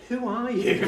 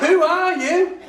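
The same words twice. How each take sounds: First: Mild astonishment. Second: Higher and louder, incredulous through a laugh; laughing astonished cry. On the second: Teacher amazed at the boy, higher and louder. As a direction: throw the question out in disbelief. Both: Retold or imitated. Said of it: "I lost my rag. I didn't. I just went".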